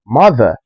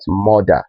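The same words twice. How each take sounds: First: Mother said mah-ther, open ah. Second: Mother said moh-der, rounded o; wrong o sound. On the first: Teacher giving the right mother, open ah. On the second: Teacher showing the wrong mother, rounded o. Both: Shown as a demonstration. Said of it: "and not mother".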